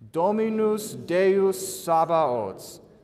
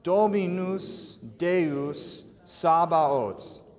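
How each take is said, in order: First: It is said a little faster. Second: It is said slowly.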